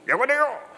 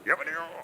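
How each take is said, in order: First: The voice sounds nearer and clearer. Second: The voice sounds far away and muffled.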